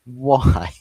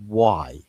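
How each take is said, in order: First: Exasperated why. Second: Said in the usual way. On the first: Real, not acted. Ranting at Pep's formation.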